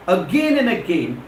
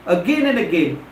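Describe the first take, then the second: No difference in how they are said.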